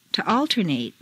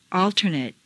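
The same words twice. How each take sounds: First: "alternate" ending in long "-NATE"; full A ending. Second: "Alternate" ending in weak "-nut"; reduced ending. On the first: Teacher models verb "alternate" with full final A. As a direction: open out the last A of "alternate". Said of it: "it's a full A sound". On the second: Teacher models adjective "Alternate" with reduced final vowel. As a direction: shrink the last vowel of "Alternate". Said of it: "in an adjective is completely reduced". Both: Shown as a demonstration.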